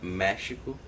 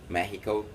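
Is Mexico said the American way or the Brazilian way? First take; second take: Brazilian; American. First: Mexico is said with a Brazilian Portuguese pronunciation. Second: Mexico is said with an American English pronunciation. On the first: This is how the speaker's country says it. "We pronounce it Mexico" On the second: This is how the listener's country says it. "however you pronounce it"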